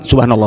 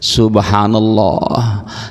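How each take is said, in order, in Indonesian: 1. Diucapkan dengan cepat dan terburu-buru. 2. Diucapkan dengan lambat dan tenang.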